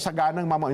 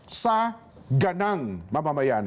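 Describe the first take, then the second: First: The first part runs together as one word. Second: The first part is split into two words. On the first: It sounds like it means prosperous citizens. The speaker calls it wrong. "Hindi po ito sagana" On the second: It means from the citizens' point of view. The speaker calls it right. "magkahiwalay po. Hindi po yun one word"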